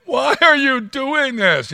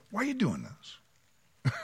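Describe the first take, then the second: First: Higher, louder, slow and commanding; powerful voice. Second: Slow, soft, kindly asked; gracious gentle question. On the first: God confronting Saul with power, commanding and loud. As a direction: make it a mighty challenge, not a plea. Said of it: "it's not the voice of a victim". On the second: Gracious God asking Saul gently, soft and slow. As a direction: ask it gently, like a hurt friend. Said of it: "how incredibly gracious for him to go". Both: Retold or imitated.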